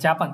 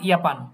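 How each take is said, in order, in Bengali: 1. শব্দটি J ধ্বনি দিয়ে শুরু হয়। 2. শব্দটি Y ধ্বনি দিয়ে শুরু হয়। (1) "যেটা আমরা বলি কি জাপান" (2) "ওরা বলে ইয়াপান"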